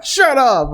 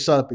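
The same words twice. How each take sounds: First: Mock-rude brush-off to her brother; rude retort. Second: Said in the usual way. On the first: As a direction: sister telling her brother off, rudely. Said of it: "she's pretty rude about it". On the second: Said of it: "I don't think she says".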